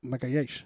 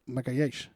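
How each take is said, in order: First: The name is said with a Portuguese accent. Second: The name is said with a Portuguese accent.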